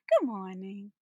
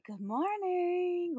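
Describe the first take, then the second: First: Said in the usual way. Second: Higher, slow sing-song good morning; sweetly overbright greeting; a sweetly bright good morning to an annoyed boss; happiest voice. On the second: Retold or imitated. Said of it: "in my happiest voice".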